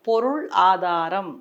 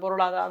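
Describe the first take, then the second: First: The word is said slowly and carefully. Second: The word is rushed out quickly. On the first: The speaker calls it right. "ஒரு ஒரு லெட்டரும் வாய்க்குள்ள உட்காந்து coffee குடிச்சிட்டு வெளியில வரணும்" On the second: The speaker calls it wrong. "அந்த ஃபாஸ்ட்ல வரும்"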